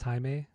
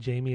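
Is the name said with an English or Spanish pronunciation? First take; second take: Spanish; English. First: The name is said with Spanish sounds. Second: The name is said with English sounds. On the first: The speaker calls it right. "in Spanish, ... it's Jaime" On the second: The speaker calls it wrong. "it's not Jamie"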